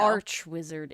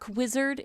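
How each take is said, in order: First: The word 'arch' ends with a ch sound. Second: The word 'arch' ends with a k sound. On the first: The speaker calls it wrong. "It's not" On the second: The speaker calls it right. "It's like"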